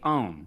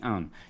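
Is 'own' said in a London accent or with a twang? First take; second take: twang; London accent. First: The word is said with a nasal twang. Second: The word is said in a London accent. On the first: This is how he actually says it. "you do have your own twang. ... You say own" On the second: This is the way he does not say it. "like a London, you don't say own"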